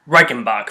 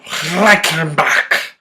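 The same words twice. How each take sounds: First: Said in the usual way. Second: Slow, drawn-out German accent. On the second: Shown as a demonstration. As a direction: say it the German way, stretched out. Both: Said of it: "My German accent is bad".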